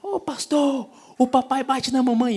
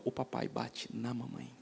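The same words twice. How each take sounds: First: Put-on high, small child's cry, much higher pitched; little girl's voice. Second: Soft, much quieter, heavy repeat; quiet retelling. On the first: Pastor imitating the little girl telling him in chapel, high child voice. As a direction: imitate a toddler blurting it out. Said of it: "se levantou e falou". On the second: Retold or imitated. Pastor repeating the child's words to the church, hushed and grave. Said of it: "a criança grita no meio de todo mundo e fala".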